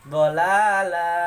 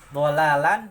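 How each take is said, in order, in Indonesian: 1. Kata itu diakhiri dengan vokal a panjang. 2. Kata itu diakhiri dengan bunyi n.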